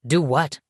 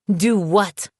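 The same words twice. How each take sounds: First: Said in the usual way. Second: Voice raised in outrage. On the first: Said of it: "his expression one of confusion". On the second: A narrator's reading. Woman echoing her ex's question, voice jumping up in outrage. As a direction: throw his question back at him, higher. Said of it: "my voice going up an octave".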